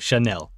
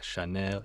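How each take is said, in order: First: It is said with an American accent. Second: It is said with a French accent.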